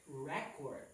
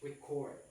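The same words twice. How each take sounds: First: The stress is on the first syllable. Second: The stress is on the second syllable. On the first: It names a list of information. "when we mean a noun" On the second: It names the action of writing down. "when we mean action or a verb"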